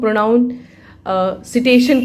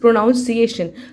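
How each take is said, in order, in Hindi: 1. शब्द का अंत 'citation' जैसी आवाज़ से होता है। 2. शब्द का अंत 'ciation' जैसी आवाज़ से होता है। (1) "बहुत लोग उसको प्रोनाउन सिटेशन कहते हैं" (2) "सिटेशन नहीं, इट इज़ प्रोनाउंसिएशन"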